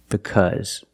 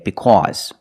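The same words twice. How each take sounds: First: The middle vowel is a short relaxed 'uh'. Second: The middle vowel is an open 'aw' sound. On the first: This is how the rest of America says it. "This is the normal pronunciation of the word" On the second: The speaker is from New York. "If you speak with a heavy New York accent, you might hear Americans say because"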